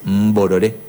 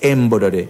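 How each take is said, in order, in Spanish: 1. La palabra empieza directamente con la consonante mb. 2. La palabra empieza con una vocal e añadida. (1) "es mborore" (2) "No es emborore"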